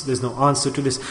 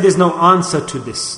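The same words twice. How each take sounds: First: Dropped low and soft, almost to himself; quiet echo. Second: Said in the usual way. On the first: Real, not acted. Preacher repeats it to himself in awe, softly. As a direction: let the repeat fall away quietly. Repeated line, second take softer.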